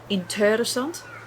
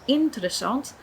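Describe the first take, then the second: First: The stress falls on a later syllable. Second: The stress falls on the first syllable. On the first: The speaker calls it wrong. "if I change the stress for the different part of the word, it doesn't actually sound right anymore" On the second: The speaker calls it right. "where the stress is placed at the first syllable of the word"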